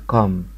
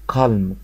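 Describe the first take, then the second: First: The word is said with no L sound. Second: The word is said with an L sound. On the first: The speaker calls it right. "النطق بتاعها كام" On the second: The speaker calls it wrong. "حتى في المدارس بيقولوا لنا كالم"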